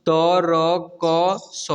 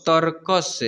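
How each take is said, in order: First: तरकस very slow, each letter separate; तरकस broken into drawn-out letters; spelled out letter by letter. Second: Said in the usual way. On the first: Shown as a demonstration. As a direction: sound out तरकस one long letter at a time. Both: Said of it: "उच्चारण करना सिखा".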